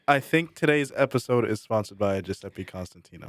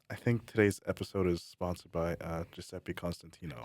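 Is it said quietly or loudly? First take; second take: loudly; quietly. First: It is said loudly, into the mic. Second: It is said quietly, away from the mic.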